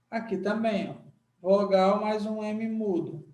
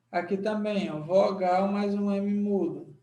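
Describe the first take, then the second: No difference in how they are said.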